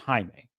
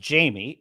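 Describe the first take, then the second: First: The name is said with Spanish pronunciation. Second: The name starts with an English J sound. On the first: The name's owner says it. The speaker calls it right. "it's pronounced Jaime" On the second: Someone read the name from print. The speaker calls it wrong. "she could be reading it as Jamie and mispronouncing it"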